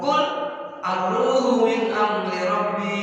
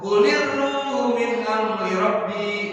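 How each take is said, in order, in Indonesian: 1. Qul berakhir tanpa vokal sebelum ar-ruhu. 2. Qul mendapat tambahan i, tersambung ke ruhu. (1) "asalnya kul ar-ruhu min amri rabbi" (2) "Bacalah sukun itu dengan diberi harokat kasroh"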